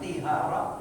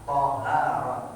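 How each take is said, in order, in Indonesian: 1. Vokal pertama adalah bunyi i. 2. Vokal pertama adalah bunyi a terbuka. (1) "jangan tihara" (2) "ta-nya dibaca fathah"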